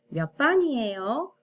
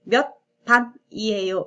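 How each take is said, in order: First: The phrase is pronounced smoothly, with linked sounds. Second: The phrase is pronounced harshly, with separated sounds. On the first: The speaker calls it right. "부드럽게" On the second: The speaker calls it wrong. "이렇게 읽지 않고"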